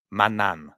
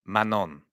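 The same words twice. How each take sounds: First: Manan with the G left silent, said mah-NAN; silent G name. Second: Manon with a nasal French on. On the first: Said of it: "the G should be a silent G". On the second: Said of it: "you say". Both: Shown as a demonstration.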